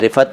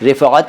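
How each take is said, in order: First: The name is said with plain Urdu pronunciation. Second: The name is said with Arabic-style pronunciation. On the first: "लेकिन रिफ़त है वो" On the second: "अरबी अंदाज़ में है"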